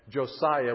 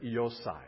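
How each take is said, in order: First: The name begins with a J sound. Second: The name begins with a Y sound. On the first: "we would say in English" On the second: "In Hebrew, the J is like a Y"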